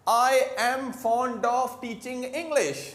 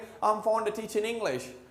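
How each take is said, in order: First: Each word, including 'of', is said clearly. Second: It is fast, with 'of' reduced almost away. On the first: "हम लोग क्या बोल रहे हैं?" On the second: "accent में इतने स्पीड में बोलते जाएंगे"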